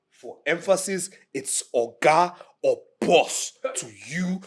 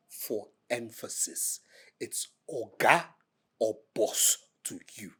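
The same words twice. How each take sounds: First: Louder, forceful "Oga or boss to you"; insistent, drawn-out "Oga or BOSS"; loud emphasis. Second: Slow, measured "Oga or boss to you"; deliberate, spaced-out "Oga... or boss"; slow emphasis. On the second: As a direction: set down "Oga" and "boss" slowly, with pauses. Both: Acted.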